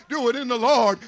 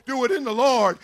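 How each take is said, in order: Both takes have the same delivery.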